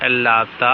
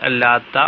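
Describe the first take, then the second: The two takes are said the same way.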